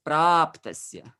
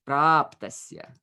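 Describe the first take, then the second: Both takes have the same delivery.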